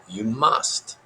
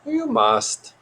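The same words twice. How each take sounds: First: Lightly voiced little sage, rising at the end; Yoda puppet voice. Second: Very high, insistent creature voice; Yoda puppet voice. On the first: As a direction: insist calmly as an odd puppet creature. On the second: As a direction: insist harder, pitched far up. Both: A narrator's reading.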